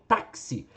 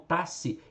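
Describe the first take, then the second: First: The x is said as a k plus s. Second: The x is said as one single sound. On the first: The speaker calls it right. "esse X aqui tem som de K S" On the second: The speaker calls it wrong. "eu não falo tasse"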